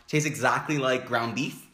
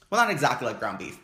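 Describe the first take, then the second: First: Said in the usual way. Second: Not said firmly, falling; stress on not. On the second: Shown as a demonstration. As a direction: hit the word not as a correction.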